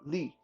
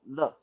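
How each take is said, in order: First: The vowel sounds like ee. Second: The vowel sounds like French le. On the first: The speaker calls it wrong. "it's not li" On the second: The speaker calls it right. "but le. Think of it as a, give it a French pronunciation"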